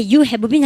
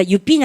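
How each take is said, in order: First: Unreduced "have" before "been"; full form. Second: "You been" with no audible "have"; reduced form. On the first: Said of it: "우리 반 나한테". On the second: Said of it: "할 겁니까". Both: Shown as a demonstration.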